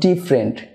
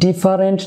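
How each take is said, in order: First: The vowel before the r is dropped. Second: The vowel before the r is pronounced. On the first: The speaker calls it right. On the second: The speaker calls it wrong.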